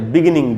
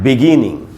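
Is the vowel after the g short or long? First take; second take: short; long. First: The vowel after the g is short. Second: The vowel after the g is long. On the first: The speaker calls it wrong. "एकदम ही गलत उच्चारण है" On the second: The speaker calls it right. "ग में जो ई है वो बड़ी ई के जैसा है"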